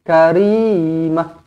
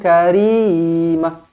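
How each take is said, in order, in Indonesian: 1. Vokal akhir dipotong pendek dan dihentikan. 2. Vokal akhir dipotong pendek dan dihentikan.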